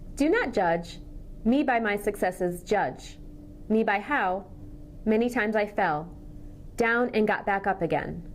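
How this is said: Pauses fall in awkward places within phrases. The speaker calls it wrong. "I paused in the wrong places"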